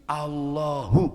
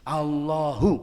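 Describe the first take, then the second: Both takes have the same delivery.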